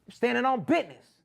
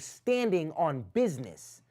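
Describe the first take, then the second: First: The sounds are relaxed and run together. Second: Every sound is crisply over-articulated. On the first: The speaker calls it right. "instead of" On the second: The speaker calls it wrong. "you're saying"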